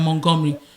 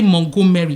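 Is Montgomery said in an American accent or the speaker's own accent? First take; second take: American accent; own accent. First: It is said the way Americans say it. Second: It is said in the speaker's own non-American accent. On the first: This is how the locals expected to hear the name. "how is this so different than Montgomery?" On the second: This is how the speaker naturally says the name. "when I say Montgomery"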